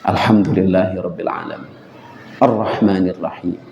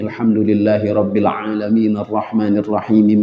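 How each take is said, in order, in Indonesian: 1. Berhenti dengan napas di antara ayat-ayat. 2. Berlanjut terus di antara ayat-ayat tanpa berhenti. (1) "Ini wakaf namanya" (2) "Itu wasal"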